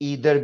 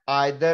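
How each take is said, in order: First: The first vowel sounds like 'ee'. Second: The first vowel sounds like 'eye'. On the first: "ज्यादातर लोग ईदर कहते हैं" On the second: "मुझे आइदर कहना अच्छा लगता है"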